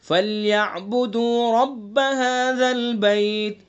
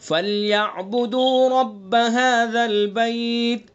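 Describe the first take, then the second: No difference in how they are said.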